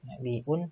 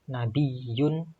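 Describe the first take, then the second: First: It has a glottal stop in the middle. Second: It has a doubled y sound in the middle. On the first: It comes from a word meaning news. "dengan hamzah nabiun" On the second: It comes from a word meaning a high place. "dengan dibaca tasdid nabiyun"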